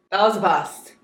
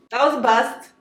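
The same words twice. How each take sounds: First: Said in the usual way. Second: Disappointed. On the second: Real, not acted. Repeats disappointment.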